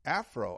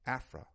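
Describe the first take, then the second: First: The prefix ends in an 'o' vowel sound. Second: The prefix ends in an 'a' vowel sound. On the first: The speaker calls it wrong. "they spell it out and pronounce it Afro" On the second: The speaker calls it right. "We should use Afra, A-F-R-I"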